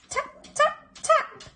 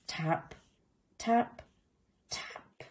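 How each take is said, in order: First: Tiny, very high pecks; tapping sound. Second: Hushed taps dying away; soft tapping. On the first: Narrator voices sound from the eggs, high little taps. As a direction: squeak out each tap, short and separate. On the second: Narrator voices little tooth tapping, soft and fading. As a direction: let each tap fade into a whisper. Imitating sound inside eggs, softly. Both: A narrator's reading.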